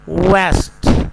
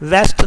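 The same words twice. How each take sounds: First: It starts with a rounded W sound. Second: It starts with a V sound. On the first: The speaker calls it right. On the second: The speaker calls it wrong.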